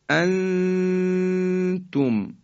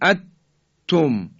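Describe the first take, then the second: First: The n is hidden as a held nasal sound. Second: The n disappears completely into the t. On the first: The speaker calls it right. "ما حالتی بین در حقیقت اظهار و ادغام داریم" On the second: The speaker calls it wrong. "اینم که دیگه حالت ادغامه و صحیح نیست"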